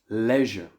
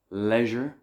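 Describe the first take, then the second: First: It is said the British and Irish way. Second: The same.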